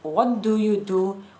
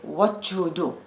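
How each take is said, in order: First: The t and d are said separately. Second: A ch sound joins the first words. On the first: "Instead of saying" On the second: "So there's a sound ch appears in the middle"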